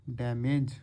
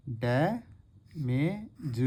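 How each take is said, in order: First: Said in the usual way. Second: डैमेज stretched very slowly with a falling end; teacher sounding out डैमेज slowly; drawn-out demo. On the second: Shown as a demonstration. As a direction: draw out डैमेज, holding the ऐ. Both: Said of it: "ए वाली sound आ रही थी".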